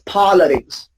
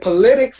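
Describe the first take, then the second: First: The stress is on the first syllable. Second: The stress is on the second syllable. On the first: The speaker calls it right. "It's politics" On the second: The speaker calls it wrong. "Please don't say politics"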